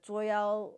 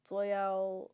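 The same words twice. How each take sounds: The two takes are said the same way.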